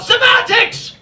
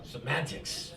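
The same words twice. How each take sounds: First: Put-on very high, loud English-accented shriek; hammed-up English-accented mother's outburst; angry English accent. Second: Low, soft echo; softly repeated, well under the shriek; quiet aside. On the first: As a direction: dismiss it with a mock English scream. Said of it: "she does it all in an English accent". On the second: Retold or imitated. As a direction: drop it down to a quiet, dry repeat. Comedian repeats mother's word as himself.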